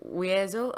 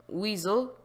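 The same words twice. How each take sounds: First: "Weasel" said wee-EH-zul, three syllables; alternative pronunciation. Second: "Weasel" said WEE-zul, two syllables; first pronunciation. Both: Shown as a demonstration. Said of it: "I don't know how to pronounce it".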